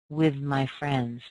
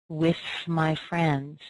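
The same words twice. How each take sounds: First: The th in 'with' is voiced. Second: The th in 'with' is voiceless. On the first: "people using that voiced sound" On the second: "I tend to use the unvoiced th"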